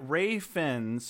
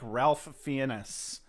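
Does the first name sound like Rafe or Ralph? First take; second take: Rafe; Ralph. First: The first name sounds like Rafe, with no L. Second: The first name sounds like Ralph, with an L. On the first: The speaker calls it wrong. "she pronounced it Ray Fiennes or some shit like that" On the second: The speaker calls it right. "it looks to me like Ralph Fiennes"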